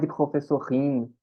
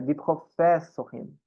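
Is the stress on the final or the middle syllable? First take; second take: final; middle. First: The stress falls on the final syllable. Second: The stress falls on the middle syllable. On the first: The speaker calls it wrong. "a gente tende a puxar a tônica para cá" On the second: The speaker calls it right. "mas ela não fica no fim. É curtinho"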